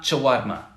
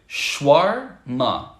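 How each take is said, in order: First: The word is said with three syllables. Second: The word is said with two syllables. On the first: The speaker calls it wrong. "So it's not" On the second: The speaker calls it right. "two syllables actually"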